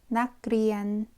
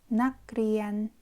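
The two takes are said the same way.

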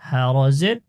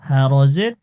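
Both takes have the same delivery.

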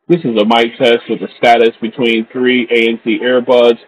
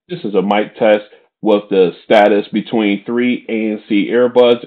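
First: The voice is heard over a noisy crowd background. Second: The voice is heard over a quiet background. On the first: "in a crowded location" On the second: "in a quiet location"

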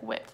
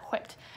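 First: The word starts with a plain W sound. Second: The word starts with a breathy HW sound. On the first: "I just say like whipped" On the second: "enunciate the H"

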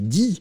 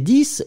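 First: The word ends on the vowel, no final consonant. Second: The word ends with an audible final consonant. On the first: Something follows the number. "quand on va utiliser quelque chose après, on va le prononcer 10" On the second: The number stands on its own. "on peut le prononcer 10"

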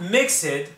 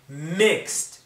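First: The ending is not a T sound. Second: The ending is a T sound. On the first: The speaker calls it wrong. "not mixed" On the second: The speaker calls it right. "it's a T sound"

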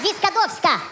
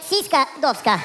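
First: It begins with a z sound, said smoothly. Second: It begins with an s sound, split oddly. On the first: The speaker calls it right. "а зіскадовська" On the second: The speaker calls it wrong. "не сіська довська"

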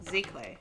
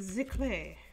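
First: It is said in a plain, ordinary accent. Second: It is said in a posh French accent.

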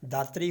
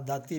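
First: The word is said with the r sound. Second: The word is said without the r sound. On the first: This is the Majhi form. "Majhi ਦੇ ਵਿੱਚ" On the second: This is the Doabi and Malwai form. "ਦੁਆਬੇ ਵਾਲੇ ਤੇ ਮਾਲਵੇ ਵਾਲੇ"

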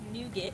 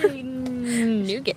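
First: The word is said at a normal speed. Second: The word is said slowly and drawn out.

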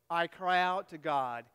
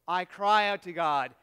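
First: It is read plainly, without much energy. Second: It is read loudly, with strong feeling. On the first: The speaker calls it wrong. "you read that" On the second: The speaker calls it right. "read with a little bit of passion"

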